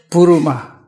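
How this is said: It is said as three syllables, Bu-ru-ma. "according to Sri Lanka, they say Buruma"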